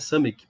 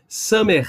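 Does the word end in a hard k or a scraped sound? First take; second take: hard k; scraped. First: The word ends in a hard k sound. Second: The word ends in a scraped throat sound. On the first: The speaker calls it wrong. "mas não é Samek" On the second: The speaker calls it right. "Samer, arranhando"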